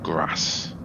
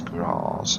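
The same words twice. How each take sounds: First: It is said with a northern English accent. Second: It is said with a non-northern English accent. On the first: The speaker calls it wrong. "and not grass" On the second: The speaker calls it right. "I'm not northern, so I presume it's grass"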